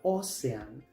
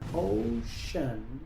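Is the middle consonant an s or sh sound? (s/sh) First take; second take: s; sh. First: The middle consonant is an s sound. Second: The middle consonant is a sh sound. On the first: The speaker calls it wrong. "Muchos pronuncian esta palabra" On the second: The speaker calls it right. "la C se pronuncia como sh"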